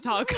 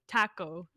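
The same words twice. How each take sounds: First: Taco is said with the usual American pronunciation. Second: Taco is said with a Canadian-style pronunciation. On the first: This is how most people say it. "instead of taco" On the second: This is how the dad says it. "my dad pronounces it taco"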